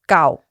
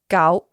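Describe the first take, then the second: First: The pitch falls across the word. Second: The pitch stays level across the word. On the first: "and then a falling tone" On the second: "a steady tone"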